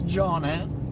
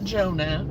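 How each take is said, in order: First: The name is said with a short Jonna ending. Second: The name is said like the word Jonah. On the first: The speaker calls it right. "It's Jonna" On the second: The speaker calls it wrong. "it's not Jonah"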